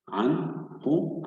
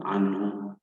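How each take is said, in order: First: "عن هو" in two pieces, short pause between; syllable by syllable. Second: Said in the usual way. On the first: Shown as a demonstration. Teacher shows the short gap between syllables, split reading. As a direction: say "عن", wait, then "هو". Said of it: "فاصل قصير بين المقاطع". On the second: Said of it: "سنعيد قراءة الكلمة بشكل كامل".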